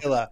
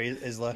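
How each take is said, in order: First: The S sound in the name is silent. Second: The S sound in the name is pronounced. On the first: The speaker calls it right. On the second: The speaker calls it wrong.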